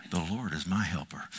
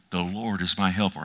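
First: "The Lord is my helper" said low and much softer, to himself; quiet private affirmation. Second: Said in the usual way. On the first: Shown as a demonstration. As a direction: murmur it alone in the office. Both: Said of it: "I'll walk around my office and I'll say".

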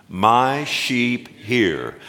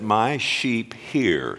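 First: Slow recitation. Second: Slow, deliberate scripture line; measured call to recite; slow recitation. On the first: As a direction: lead the congregation through it. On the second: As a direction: say it slowly for the church to repeat. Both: Shown as a demonstration. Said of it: "Say that with me".

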